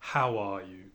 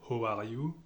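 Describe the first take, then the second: First: The vowel starts open, like an a. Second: The vowel starts closed, like an o. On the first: The speaker calls it right. "si on remplace ce O par un A, ... ça va devenir vraiment anglais" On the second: The speaker calls it wrong. "on va penser O, donc euh, Ho"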